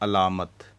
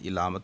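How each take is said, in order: First: The first vowel sounds like 'a'. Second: The first vowel sounds like 'i'. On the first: The speaker calls it right. "ऐन के ऊपर ज़बर है" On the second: The speaker calls it wrong. "इलामत नहीं है"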